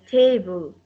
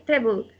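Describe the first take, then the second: First: "table" with a long A; "table" stressed on a lengthened ta, falling after; long vowel A. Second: "table" with the A cut short; the mistaken short-A "table"; vowel too short. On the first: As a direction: stretch the first vowel of "table". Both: Shown as a demonstration. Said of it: "the vowel A is longer".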